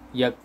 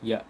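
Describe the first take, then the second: First: The syllable ends with a k sound. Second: The syllable ends with a glottal stop. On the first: The speaker calls it wrong. "jangan kita baca dengan kaf. ... tak boleh" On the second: The speaker calls it right. "dia hamzah dekat sini"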